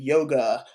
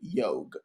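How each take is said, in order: First: The word ends with a final a vowel. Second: The word ends without a final vowel. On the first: The speaker calls it wrong. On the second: The speaker calls it right.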